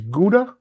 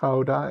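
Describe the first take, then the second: First: Gouda is pronounced the English way. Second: Gouda is pronounced the Dutch way. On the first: This is how someone else says it. "Jack says he loves Gouda" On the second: This is how the speakers themselves say it. "or Gouda as we call it"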